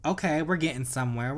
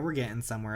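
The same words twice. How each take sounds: First: Excited. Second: Said in the usual way. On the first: Real, not acted. Excited progress in game.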